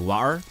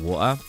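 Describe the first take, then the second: First: It is said with an American accent. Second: It is said with a British accent. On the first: "the American pronunciator pr pronunciation, it will say water" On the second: "how English would say it, like water"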